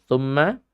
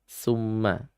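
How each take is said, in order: First: The word begins with a th sound. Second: The word begins with an s sound. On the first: The speaker calls it right. "Seperti thumma itu menjadi" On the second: The speaker calls it wrong. "dengan bacaan summa"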